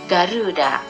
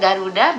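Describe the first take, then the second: First: The 'ru' vowel is lengthened. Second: The 'ru' vowel is short. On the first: This is how Japanese speakers hear and say it. "pada lafal ru perlu dipanjangkan sehingga menjadi Garuda" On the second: This is how native speakers say it. "mengucapkan Garuda biasa saja, tidak memakai bentuk panjang"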